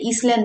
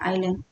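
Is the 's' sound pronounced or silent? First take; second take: pronounced; silent. First: An s sound is pronounced in the middle. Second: No s sound is pronounced in the middle. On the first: The speaker calls it wrong. "ईसलैंड नहीं बोलते" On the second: The speaker calls it right. "इसका एस silent होता है"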